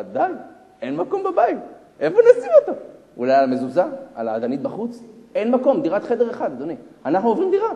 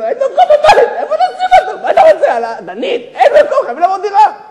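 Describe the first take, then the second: First: High, loud acted complaint; mock wifely protest, pushing up in pitch; exasperated wife. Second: Very high, hammed-up screaming complaint; frantic wife. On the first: Wife telling husband there is no room, exasperated. Wife's first complaint about crowding. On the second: Wife to husband after fifth child, frantic screaming. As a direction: screech it as a wife at her limit.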